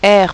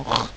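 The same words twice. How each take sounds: First: "R" said as its French name, "erre"; name the letter "R" clearly. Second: "R" as a bare throaty French r, no vowel; phoneme sound. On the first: Teacher correcting the spelling, "R" as a letter name. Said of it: "R pour le son R". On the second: Teacher giving the letter's sound, "R" as pure consonant. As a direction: rasp the sound of "R" alone. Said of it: "pour le son R". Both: Shown as a demonstration.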